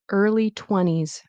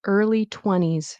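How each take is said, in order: First: The T sound in twenties is dropped. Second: The T sound in twenties is dropped.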